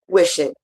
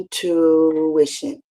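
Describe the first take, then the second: First: It is said at normal speed. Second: It is said slowly.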